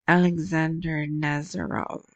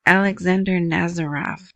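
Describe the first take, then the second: First: A half-hearted stab at a Russian accent on the name; attempted Russian accent. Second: Said in the usual way. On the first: Shown as a demonstration. Vlogger tries a Russian name, then a weak Russian accent. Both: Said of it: "Can't do a Russian accent".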